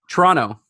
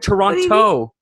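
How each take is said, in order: First: The name is said like a local would. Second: The name is said like an outsider would. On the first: The speaker sounds like they are from the city. The speaker calls it right. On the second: The speaker sounds like they are not from the city. The speaker calls it wrong.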